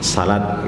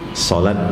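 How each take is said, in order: First: It is said in a Padang regional accent. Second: It is said in a standard Indonesian accent.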